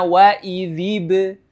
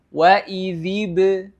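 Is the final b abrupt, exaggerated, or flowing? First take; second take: flowing; flowing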